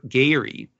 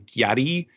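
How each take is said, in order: First: The first syllable is a plain ga sound. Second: The first syllable has a y-glide, like gya. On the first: "like Gar Gary" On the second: "so like like in a real exaggerated New York way"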